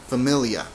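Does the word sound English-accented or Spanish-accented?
English-accented. The word is said with English-like sounds. The speaker calls it wrong. "So you want to say familia, uh, but it doesn't sound anything like that really"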